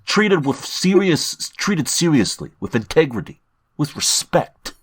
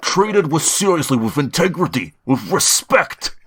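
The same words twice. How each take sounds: First: Put-on Jersey wiseguy accent, drawn out; slow New Jersey tough guy read. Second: Put-on Bernie Sanders accent. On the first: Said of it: "Put on your best Boston accent or New Jersey accent". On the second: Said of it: "you almost veered into Bernie Sanders".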